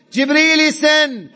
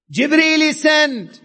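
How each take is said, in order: Both takes have the same delivery.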